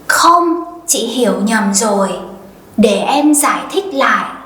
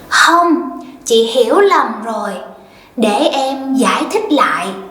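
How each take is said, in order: First: It uses the northern Vietnamese pronunciation. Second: It uses the southern Vietnamese pronunciation.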